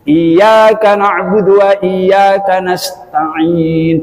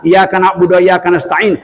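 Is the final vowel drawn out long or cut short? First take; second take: long; short. First: The final vowel is drawn out long. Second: The final vowel is cut short. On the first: The speaker calls it right. "Panjang semua" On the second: The speaker calls it wrong. "Salah enam"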